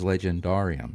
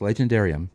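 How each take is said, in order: First: The word gets an older pronunciation. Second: The word gets its American pronunciation. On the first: "he used the older pronunciation, which is Legendarium" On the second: "is the American pronunciation"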